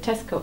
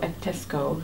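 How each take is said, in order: First: It is said without an added vowel. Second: It is said with an added vowel. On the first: "instead of" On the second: "sometimes they say"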